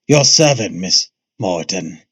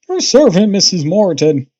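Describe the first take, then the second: First: A lower, gruffer put-on character voice. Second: A thin, high-pitched put-on character voice. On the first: "What about Vegeta?" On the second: "Krillin voice it is"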